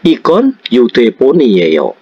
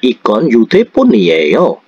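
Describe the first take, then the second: First: The pitch falls at the end. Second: The pitch rises at the end. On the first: It states that this is a phone. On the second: It asks whether this is a phone.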